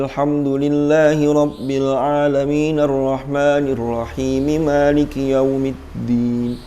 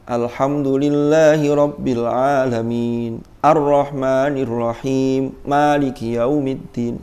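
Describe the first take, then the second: First: It runs on without a breath between phrases. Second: It breaks between phrases without taking breaths. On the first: The phrases are joined together. The speaker calls it right. "Ketika disambung wasol maka tidak boleh ambil nafas" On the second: Joining and stopping are mixed together. The speaker calls it wrong. "Jangan digabung antara wasol dan waqaf"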